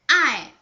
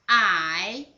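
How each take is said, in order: First: The pitch falls sharply from high. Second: The pitch dips low then rises.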